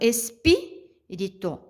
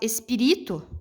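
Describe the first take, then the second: First: The stress is on the second syllable. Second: The stress is on the third syllable. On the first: The speaker calls it right. "a sílaba tônica dessa palavrinha é o pi" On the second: The speaker calls it wrong. "Eu transformar o, o ri na, na sílaba tônica"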